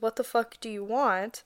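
It is said in an angry, commanding tone.

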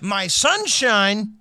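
The voice stays level at the end. The speaker has more to say after this. "Was it mid-sentence? ... because that means something would have followed"

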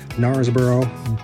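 It is said in an American accent. "I'm going to say it like we would say it in America"

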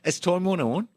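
It is said in a put-on Australian accent.

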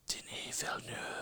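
It is said in a rough, raspy voice.

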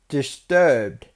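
The word is said with a put-on accent.

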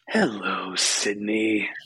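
It is said in a Ghostface voice impression.

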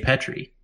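It has a British accent, short first vowel.

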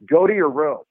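The pitch falls at the end of the sentence. The request sounds authoritative. The speaker calls it right. "They say"

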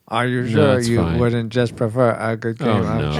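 It is read in a put-on robotic voice.

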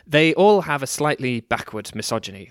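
It is said in a natural speaking voice. The speaker is talking as themself. The speaker calls it right. "I'm talking as myself now"

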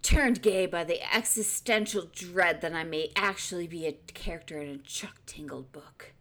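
It is read in a dramatic movie trailer voice.

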